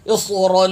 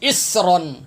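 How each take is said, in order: First: اسرن with a heavy, dark emphatic s; correct saad. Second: اسرن with a thin, whistling s; wrong seen. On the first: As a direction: recite اسرن with full saad and held final n. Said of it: "یہ صاد ہے". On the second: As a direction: mimic the mistake, اسرن with plain seen, short ending. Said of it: "سین پڑھتے ہیں". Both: Shown as a demonstration.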